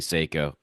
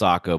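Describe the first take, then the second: First: The first syllable sounds like 'sigh'. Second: The first syllable sounds like 'sah'. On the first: This is a personal preference. "but I choose to say Seiko" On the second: This is how the company says it. "I know it's pronounced Sako"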